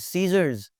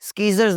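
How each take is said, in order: First: No k sound follows the initial s. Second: A k sound follows the initial s. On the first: The speaker calls it right. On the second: The speaker calls it wrong.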